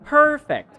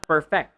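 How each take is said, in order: First: PERfect, first syllable high and loud; stress on first syllable. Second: PerFECT, weight on the last syllable; stress on second syllable. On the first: Teacher models the noun for the class, first-syllable stress. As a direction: punch PER in Perfect, let fect drop. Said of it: "stress on the first syllable". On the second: Teacher showing the mistake to avoid, second-syllable stress. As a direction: perfect with a weak PER and stressed FECT. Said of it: "not perfect". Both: Shown as a demonstration.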